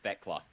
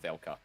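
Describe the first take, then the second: First: The L sound comes after the K sound. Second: The L sound comes before the K sound. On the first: The speaker calls it right. "it's pronounced Thekla" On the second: The speaker calls it wrong. "not Thelka"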